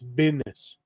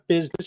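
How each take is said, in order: First: The middle has a d sound. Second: The middle has a z sound. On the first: The speaker calls it right. "business with a D" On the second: The speaker calls it wrong. "Not business"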